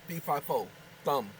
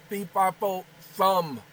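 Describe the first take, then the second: First: Said in the usual way. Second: "Fee, fi, fo, thumb" each syllable punched loud and separate; loud spelled-out demo. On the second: Shown as a demonstration. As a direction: hammer out "Fee, fi, fo, thumb" word by word.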